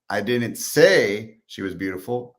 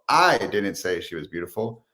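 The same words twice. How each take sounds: First: The word "say" carries the main stress. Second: The word "I" carries the main stress.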